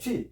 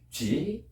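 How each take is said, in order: First: The syllable is said plainly, without a tone. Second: The syllable is said with a Chinese tone contour. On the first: "그냥 처음에 우리가 말할 때 취" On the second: "성조 넣으면 취"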